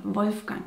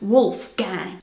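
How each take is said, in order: First: Said in the usual way. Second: "Wolfgang" in a slow American accent, "wolf gang". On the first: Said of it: "have a look at the name". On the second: Shown as a demonstration. Showing how Americans say the German name "Wolfgang", American accent. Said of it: "Pronounced with an American accent".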